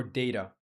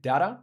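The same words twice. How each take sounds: First: "data" with first syllable like "day", falling at the end; alternate pronunciation. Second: "data" with the first vowel as in "cat", rising as a question; alternate pronunciation. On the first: Asking a native speaker which is correct, long-A pronunciation of data. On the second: Asking a native speaker which is correct, alternate pronunciation of data. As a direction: say "data" with a short flat first vowel, "DAT-uh". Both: Shown as a demonstration. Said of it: "Is it data or data?".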